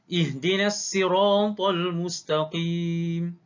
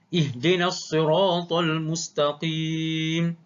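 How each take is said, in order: First: The s in sirat is a plain s. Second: The s in sirat is an emphatic s. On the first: "Yang kedua, Qumbul" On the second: "pertama sekali dengan qalun"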